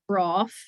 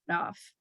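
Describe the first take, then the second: First: The R is retroflex, like English R. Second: The R is tapped, like Spanish R.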